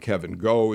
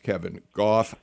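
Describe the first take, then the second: First: The surname ends in a vowel sound. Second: The surname ends with an f sound. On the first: The speaker calls it wrong. "we have been mispronouncing on Friday the name" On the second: The speaker calls it right. "His name is Kevin Goff"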